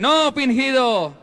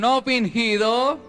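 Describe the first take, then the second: First: It is said even more loudly. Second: It is said at normal volume.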